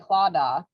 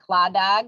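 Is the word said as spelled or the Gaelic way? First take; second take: Gaelic way; as spelled. First: The word is said with its Gaelic pronunciation. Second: The word is said as its English spelling suggests. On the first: The speaker calls it right. "it's actually Claddagh" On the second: The speaker calls it wrong. "it looks like it would be pronounced like Cladag"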